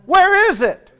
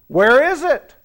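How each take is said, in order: First: Higher, louder, with a laugh, pressing for an answer; prodding repeat. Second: Said in the usual way. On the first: Real, not acted. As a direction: push the room to answer. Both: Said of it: "I didn't hear that one".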